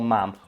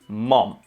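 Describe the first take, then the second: First: The word is said in a neutral accent. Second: The word is said in an imitated accent.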